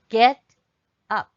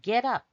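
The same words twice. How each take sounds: First: It is said at a normal pace. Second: It is said fast.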